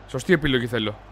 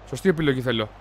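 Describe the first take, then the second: No difference in how they are said.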